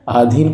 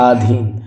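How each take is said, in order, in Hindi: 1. यह शब्द लंबे 'aa' स्वर से शुरू होता है। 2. यह शब्द लंबे 'aa' स्वर से शुरू होता है।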